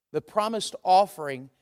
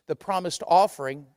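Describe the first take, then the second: No difference in how they are said.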